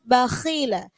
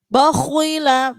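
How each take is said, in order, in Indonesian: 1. Huruf kh tetap tebal, tetapi tidak ada bunyi w. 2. Huruf kh yang tebal dibulatkan, sehingga muncul bunyi w. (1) "tetap tebal tapi dia berkurang" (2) "nggak boleh gitu"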